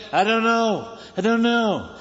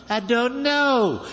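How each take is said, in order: First: Higher, tired brush-off of the nagging crowd; a fed-up leader shrugging off questions; Abraham, fed up, brushing off his nagging people; weary Abraham. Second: Higher and very slow, a long weary sigh of a line; Abraham answering one more time, slow and exhausted; drawn-out weary Abraham. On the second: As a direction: stretch it out like a worn-out leader. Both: Retold or imitated.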